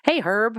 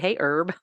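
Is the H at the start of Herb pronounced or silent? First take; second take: pronounced; silent. First: The H at the start is pronounced. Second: The H at the start is silent. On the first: The speaker calls it right. "we say the H, like we say herb, if it's a name" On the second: The speaker calls it wrong. "We don't say"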